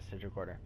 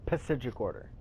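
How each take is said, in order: First: The initial P is not pronounced. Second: The initial P is clearly pronounced. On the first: "I'm just kidding" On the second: "I'm saying the P"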